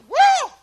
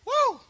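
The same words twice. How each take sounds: First: The shout is stronger and more excited. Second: The shout is fairly restrained.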